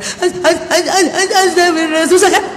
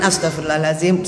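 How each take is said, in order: First: Choked, stammering mock sobs, higher pitched; struggling tearful istighfar. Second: Low, gentle murmured prayer; soothing istighfar. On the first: Grieving widow told to say istighfar, acted struggling through sobs. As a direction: imitate someone crying too hard to get the phrase out. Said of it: "susah juga disuruh istighfar". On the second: Acted. Friend saying istighfar for a crying widow while stroking her, soothing. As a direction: say it for them, soothingly and much lower. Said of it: "kita yang istighfarin".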